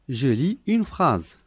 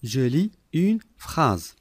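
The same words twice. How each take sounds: The two takes are said the same way.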